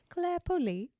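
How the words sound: The name is said in a British accent.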